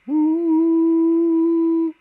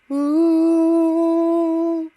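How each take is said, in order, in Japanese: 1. 胸に響く、抑えめでこもった裏声。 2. 鼻に響く、明るく通る裏声。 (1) "一歩引いたような音色の裏声" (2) "鼻腔共鳴。…ここを使って裏声を出すと、うーこういう感じの音色になります。音の通りがいい裏声"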